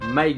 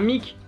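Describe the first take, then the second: First: The name is pronounced the English way. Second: The name is pronounced the French way. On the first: "à sonorité anglaise" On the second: "prononcés le plus à la française possible"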